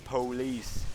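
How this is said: It is said with a Black American pronunciation.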